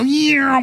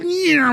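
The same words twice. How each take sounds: First: Imitated orb whoosh. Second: Much higher quick swoosh as the orbs fly off; imitated orb whoosh. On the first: Describing orbs flying off at dawn, higher playful whoosh. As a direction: mimic the orbs zipping off with a quick vocal whoosh. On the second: Retelling fireballs bursting into little things, higher zipping whoosh. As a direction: toss off a bright vocal zip for the little things.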